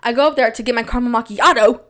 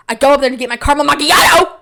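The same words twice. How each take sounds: First: Said in the usual way. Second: Loud, high, hammed-up yell; exaggerated excitement. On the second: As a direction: build to a yelled last word. Repeats the line, escalated.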